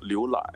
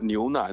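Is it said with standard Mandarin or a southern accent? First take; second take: southern accent; standard Mandarin. First: It is said with a southern accent, n becoming l. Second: It is said with standard Mandarin n sounds.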